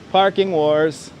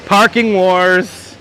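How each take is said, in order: First: Said in the usual way. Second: Slow, drawn-out, louder announcer read; dramatic announcement. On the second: Pretend. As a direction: boom it out like a show title. Reading a sign aloud, dramatically.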